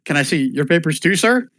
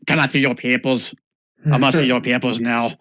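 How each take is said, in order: First: Said in the usual way. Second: Mock German accent demand; German-accented border guard. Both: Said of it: "Does he say it with a German accent?".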